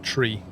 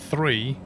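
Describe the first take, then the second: First: The word begins with a plain t sound. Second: The word begins with a th sound. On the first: "meant to be said tree" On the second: "three is meant to be said"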